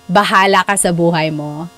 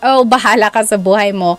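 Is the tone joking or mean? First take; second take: mean; joking. First: It is said in a mean, frustrated tone. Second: It is said in a joking, playful tone.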